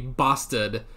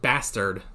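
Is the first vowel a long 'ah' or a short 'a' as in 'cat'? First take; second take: long ah; short a. First: The first vowel is a long 'ah' sound. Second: The first vowel is a short 'a' as in 'cat'. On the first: "It's so much fun to say bastard" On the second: "instead of just bastard"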